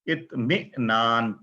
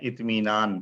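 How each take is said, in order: First: A glottal catch comes before the middle vowel. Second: A smooth long ee vowel fills the middle. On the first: "यहाँ क्या लिखा हुआ है" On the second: "हमजा की जगह या के साथ हम बोलते हैं"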